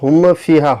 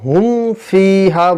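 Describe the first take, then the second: First: The m ends with an echoing bounce. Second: The m is closed cleanly without bounce. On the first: The speaker calls it wrong. "তো হুম ফিহা হয় না" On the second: The speaker calls it right. "এখানে হুম ফিহা বলতে হবে"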